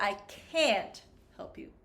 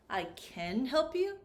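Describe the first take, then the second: First: "can't" with a full, stressed vowel; produced vowel. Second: "can" with a short vowel, like ken; reduced vowel. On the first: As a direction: hit the open vowel in "can't". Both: Shown as a demonstration. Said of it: "it's the vowel sound".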